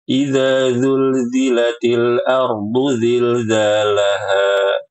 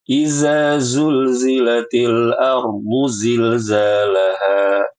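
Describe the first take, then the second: First: Every z-like sound is said as 'dh'. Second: Every z-like sound is said as 'z'. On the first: "Kadang dibaca dengan zal" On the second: "Atau dibaca dengan zai semua"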